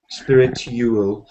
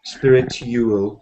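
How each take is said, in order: First: The middle is said with a clear 'tyoo' sound. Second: The same.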